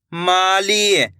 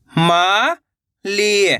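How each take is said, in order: First: Said in the usual way. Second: "Mali" split into two long syllables. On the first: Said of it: "तो मिलके बन जाएगा". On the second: Shown as a demonstration. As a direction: draw out मा, pause, then ली in "Mali". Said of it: "एक एक अक्षर का उच्चारण". ("माली" को तोड़कर, मा... ली)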